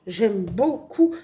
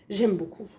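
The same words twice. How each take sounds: First: Slow, with "beaucoup" drawn out; stress on beaucoup. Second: Said in the usual way. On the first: Real, not acted. Vlogger insists on her liking for the drawing, "beaucoup" stretched out. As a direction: stretch the word "beaucoup" for emphasis.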